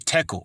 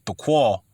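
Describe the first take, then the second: First: The word ends with a plain 'kel' sound. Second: The word ends with a 'kwal' sound.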